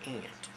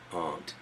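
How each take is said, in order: First: The word sounds the same as the insect ant. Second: The word sounds different from the insect ant. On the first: This is how it was said in earlier years. "like that little bug that runs on the ground" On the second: This is how it is said nowadays. "Now she's my aunt"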